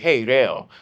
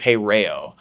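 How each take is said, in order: First: The R is rolled, Japanese style. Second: The R is plain American, not rolled.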